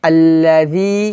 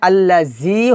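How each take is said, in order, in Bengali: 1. মাঝের ব্যঞ্জনটি 'dh' ধ্বনির মতো শোনায়। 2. মাঝের ব্যঞ্জনটি 'z' ধ্বনির মতো শোনায়। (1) "জিহ্বার আগা উপরে দাঁতের আগার সঙ্গে লাগিয়ে" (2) "এখানে আল্লাযী হবে না"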